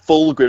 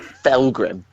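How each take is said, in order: First: The first vowel sounds like the one in 'full'. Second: The first vowel sounds like the one in 'fell'. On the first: The speaker calls it right. "it's Fulgrim" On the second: The speaker calls it wrong. "not Felgrim"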